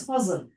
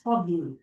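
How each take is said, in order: First: Fazl with a clear z sound; Fazl, spelt Fa, Zayn, Lam; pronounced with Zayn. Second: Fadl with d instead of z; other accent's pronunciation. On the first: Shown as a demonstration. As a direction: say Fazl with z before the l. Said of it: "Fa, Zayn, Lam in Arabic". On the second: Retold or imitated. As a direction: say Fadl with a d before the l. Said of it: "how we say it in our accent".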